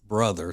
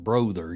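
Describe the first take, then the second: First: The first vowel is a short 'uh' sound. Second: The first vowel is a long 'oh' sound. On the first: The speaker calls it right. "you pronounce it uh, brother, so it's should be bruh" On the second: The speaker calls it wrong. "you don't pronounce it brother"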